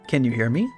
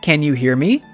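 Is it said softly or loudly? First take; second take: softly; loudly. First: It is said at a normal, quiet volume. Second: It is said much louder.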